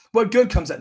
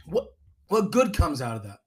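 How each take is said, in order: First: Said in the usual way. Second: Strained words through a choke; choking on water. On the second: Real, not acted. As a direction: speak while choking on a sip. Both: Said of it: "Sorry, I was choking on water".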